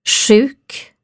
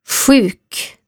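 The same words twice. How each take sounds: First: The first sound is like the rs in kurs. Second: The first sound is unlike the rs in kurs. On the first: "Eller så här, som RS i kurs" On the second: "Det kan låta så här"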